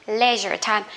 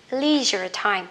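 First: LEISURE TIME as "LEH-zher time"; short E in LEISURE before TIME; British leisure. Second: LEISURE TIME as "LEE-zher time"; long EE in LEISURE before TIME; American leisure. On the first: (đọc LEISURE TIME kiểu Anh, "le-giơ") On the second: (đọc LEISURE TIME kiểu Mỹ, "li-giơ") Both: Shown as a demonstration. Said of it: "hay là".

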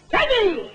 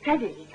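First: Much higher, louder call of the name; shout. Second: Said in the usual way. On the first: Real, not acted. Ventriloquist shouting at Teddy to stop him, loud call. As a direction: shout the name to grab his attention. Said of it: "I won't shout anymore". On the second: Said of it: "Teddy! said twice".

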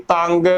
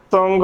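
First: ਤੰਗ with nasal but unrounded, "tang"; wrong vowel. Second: ਤੁੰਗ with rounded vowel and nasal, "tung"; both signs sounded. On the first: Teacher showing a wrong reading, mispronunciation. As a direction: lose the rounding in ਤੰਗ. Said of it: "ਗਲਤ ਉਚਾਰਨ ਹੋਵੇਗਾ". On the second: Teacher sounding both vowel signs, careful pronunciation. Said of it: "ਬੋਲਣਾ ਹੈ". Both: Shown as a demonstration.

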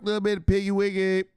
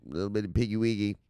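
First: High, loud playful hype; high, loud hyped piggy wiggy; hyped repeat. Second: Said in the usual way. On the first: Real, not acted. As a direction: sing it out like a hype man.

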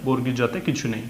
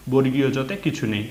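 The two takes are said the same way.

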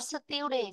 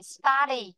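First: "study" said as "STEW-dee", with a "yoo" glide; mispronunciation. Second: "study" with an open "uh" vowel, "STAH-dee"; correct pronunciation. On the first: Teacher shows the pupil what not to say, mispronunciation. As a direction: echo the error: "study" as "styoo-dee". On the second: Teacher repeats the right word after the error, correct pronunciation. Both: Shown as a demonstration. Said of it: "not study".

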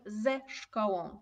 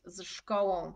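First: "ze szkołą" said slowly, with a clear ze before the consonant cluster; correct form "ze szkołą". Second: "z szkołą" said without the e, the wrong way; demonstrating the awkward "z szkołą"; wrong form "z szkołą". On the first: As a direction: stretch out "ze szkołą" so the added e is heard. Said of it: "więc mówimy". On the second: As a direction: say "z szkołą" with a bare z before the consonant cluster. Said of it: "to byłoby bardzo skomplikowane powiedzieć". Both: Shown as a demonstration.

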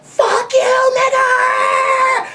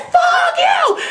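First: High, loud angry yell out a car window; high-pitched furious yell; retold driver's yell. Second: Very high, loud yell straight back; shrieking retort. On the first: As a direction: shout it like a road-raging driver. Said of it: "yell out their window like". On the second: Retold or imitated. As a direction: fire it right back at him. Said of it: "I said".

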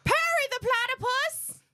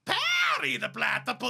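First: High nasal villain voice; Doofenshmirtz voice. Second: High cartoon villain accent; high, pushed villain whine; Doofenshmirtz voice. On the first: Pretend. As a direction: squeal it high. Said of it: "I can do that one". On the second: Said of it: "That was way better".

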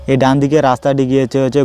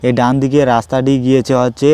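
The two takes are said the same way.

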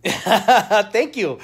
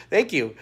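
First: Higher, louder, laughing through it; laughing thanks. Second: Said in the usual way. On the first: Real, not acted. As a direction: thank her mid-giggle.

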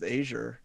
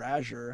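First: Azure with a long first vowel, AY-zhur; alternate pronunciation. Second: Azure with a short first vowel, AZH-ur; alternate pronunciation. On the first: Offering one way to say a tech brand, Azure as AY-zhur. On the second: Correcting oneself on a tech brand, Azure as AZH-ur. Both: Shown as a demonstration. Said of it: "however you say it".

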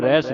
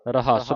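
First: ਰਹਿਸ squeezed into "rehs", one syllable; ਰਹਿਸ with an e sound, no second a; mistaken pronunciation. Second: ਰਹੱਸ as "ra-HASS", open a in the second syllable; ਰਹੱਸ in two syllables, "rahass"; correct pronunciation. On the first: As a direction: show the misreading ਰਹਿਸ as "rais". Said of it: "ਇਹਨੂੰ ਰਹਿਸ ਨਹੀਂ ਪੜ੍ਹਨਾ". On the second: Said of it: "ਰਹੱਸ ਪੜ੍ਹਨਾ". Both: Shown as a demonstration.

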